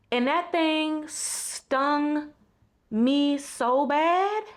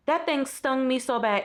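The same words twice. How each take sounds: First: Slow, drawn-out and heartfelt. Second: Said in the usual way. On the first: Real, not acted. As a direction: let it sink in slowly. Sincere reflective realization.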